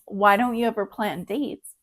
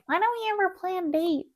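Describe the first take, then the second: First: It is said in her normal voice. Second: It is said in a put-on nagging voice.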